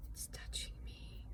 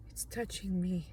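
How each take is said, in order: First: Whispered in fright, no voice; scared whisper of It's touching me. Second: Said in the usual way. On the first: Real, not acted. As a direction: barely breathe the words out. Panicked whisper then voiced.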